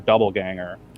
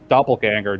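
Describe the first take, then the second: First: The first syllable has a b sound. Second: The first syllable has a p sound. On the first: The speaker calls it wrong. "I thought it was pronounced with a B" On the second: The speaker calls it right. "the word doppelganger with a P"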